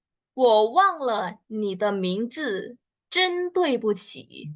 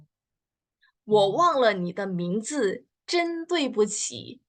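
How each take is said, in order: First: Slow clear model sentence. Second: Slow, even repeat with 对不起 raised; slow repeat of the model. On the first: Teacher models the formal apology slowly for learners. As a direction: read it slowly, lift the apology. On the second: Teacher repeats the sentence slowly for students to echo. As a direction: say it again slowly for them to copy. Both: Shown as a demonstration. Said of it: "contohnya gimana nih".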